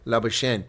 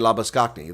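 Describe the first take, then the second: First: The name is said in the French way. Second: The name is said in the Afrikaans way. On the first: The speaker calls it right. "It's Laboshen. It's French" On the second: The speaker calls it wrong. "Afrikaners say Labaskakne. There's that's not the pronunciation"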